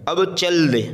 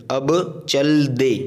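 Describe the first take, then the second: First: Said in the usual way. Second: Both words stretched slowly; slow teacher's repeat; slow model reading. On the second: Shown as a demonstration. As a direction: say it slowly so learners follow. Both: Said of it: "रवा से हमें इसको पढ़ना है".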